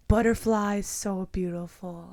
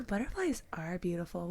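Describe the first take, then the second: First: Put-on slow, drawn-out little boy voice; each word slow like a two-year-old; lightly voiced toddler, slow and careful. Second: Put-on soft, encouraging reply to a toddler; soft auntie voice. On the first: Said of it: "He's like". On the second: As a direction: coax him gently, quieter. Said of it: "I'm like".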